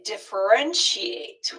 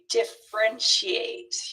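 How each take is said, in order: First: The middle syllable is pronounced. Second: The middle syllable is dropped. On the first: The speaker calls it right. "We need that middle syllable" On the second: The speaker calls it wrong. "you can't say"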